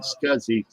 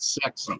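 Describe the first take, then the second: First: The term is said the usual acronym way. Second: The term is said like the word 'sexy'. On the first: "the small computer systems interface was not uh, called SCSI" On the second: "It was called sexy"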